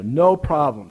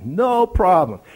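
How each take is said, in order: First: Put-on a light Greek accent on "No problem". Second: Put-on a louder, higher Greek accent on "No problem"; a Greek guide's breezy "No problem", pushed up and out. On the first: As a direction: say "No problem" like a Greek tour guide with broken English, lightly. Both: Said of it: "in his broken English and Greek accent".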